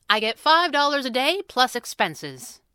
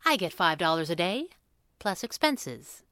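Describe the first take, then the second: First: Brisk sales pitch, raised pitch; businesslike price quote. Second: Measured, mildly smug restatement; grinning. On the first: Sister quotes her brother her detective fee, businesslike and firm. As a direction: firmly announce the fee, higher pitched. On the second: Sister restates her fee to her brother, grinning. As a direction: repeat the fee with a grin, unhurried. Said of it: "Abigail grinned". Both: A narrator's reading.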